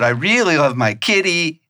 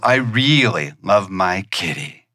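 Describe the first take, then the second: First: It is said off the natural home note. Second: It is said on the natural home note.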